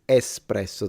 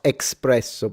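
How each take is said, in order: First: The word starts with an 'es' sound. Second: The word starts with an 'ex' sound. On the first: The speaker calls it right. "It's espresso. There is no X" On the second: The speaker calls it wrong. "not espresso, by the way"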